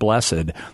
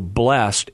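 First: The ending is said as a separate syllable. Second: The word is said as one syllable. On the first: This is the older pronunciation. "a more recent pronunciation of blessed" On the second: This is the more recent pronunciation. "blessed is simply a more recent pronunciation"

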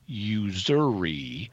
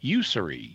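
First: The middle consonant is a buzzing Z sound. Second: The middle consonant is a hissing S sound. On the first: This is the usual English pronunciation. "you pronounce it as Z. So normally with an intervocalic S like that, we would say usury" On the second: This is an unusual, quirky pronunciation. "but you said usury. You kept it as a... As an S sound"

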